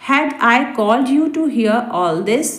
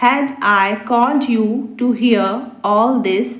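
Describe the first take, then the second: First: Said in the usual way. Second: Slow, measured, each word separate; slow repeat. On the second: Shown as a demonstration. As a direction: repeat the question slowly for learners. Repeats translation slowly for learners. (धीरे-धीरे, शब्द अलग करके)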